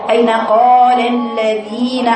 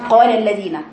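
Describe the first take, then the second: First: Slow "قال الذين" with long vowels held out; full two-count madd. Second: "قال الذين" rushed, every long vowel cut short; clipped long vowels. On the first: Shown as a demonstration. Teacher asking where the two counts went, vowels drawn out. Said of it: "فين الحركتين؟". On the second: Retold or imitated. Teacher imitating careless reciters, long vowels snatched short. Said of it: "بيختلس كل المدود".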